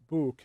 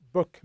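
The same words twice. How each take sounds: First: "book" with a drawn-out oo; "book" with an over-long oo, as the mistake; mispronunciation demo. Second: "book" with a short vowel; "book" said short, as the model pronunciation; correct pronunciation. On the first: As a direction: say "book" wrongly, stretching the vowel long. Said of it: "book, not book". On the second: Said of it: "to pronounce the word correctly". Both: Shown as a demonstration.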